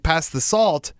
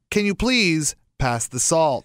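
First: Said in the usual way. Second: Slow with "please" stressed and drawn out; attention-grabbing cadence. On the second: Shown as a demonstration. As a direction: make every word of "Can you please pass the salt?" grab attention, leaning on "please". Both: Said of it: "that's not as attention-grabbing as if I said".

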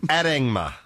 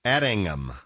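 First: Addingma, stumbled wrong reading; first try. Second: Addingham, said clearly and firmly; corrected. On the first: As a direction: say Addingma, hesitant wrong stress. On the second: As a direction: settle on Addingham, falling tune. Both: Shown as a demonstration. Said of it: "so that's how you say it".

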